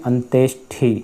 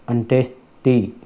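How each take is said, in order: No difference in how they are said.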